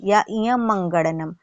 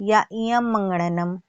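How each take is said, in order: The two takes are said the same way.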